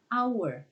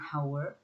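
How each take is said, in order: First: The word begins with no h sound. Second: The word begins with an audible h sound. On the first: The speaker calls it right. "tapi hour hanya nggak dibaca" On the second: The speaker calls it wrong. "Kita nggak mengatakan hour"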